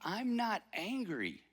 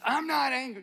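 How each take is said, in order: First: It is said in a calm, plain tone. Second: It is said in a tense, angry tone.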